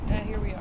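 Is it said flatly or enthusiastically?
flatly. It is said flatly, without enthusiasm.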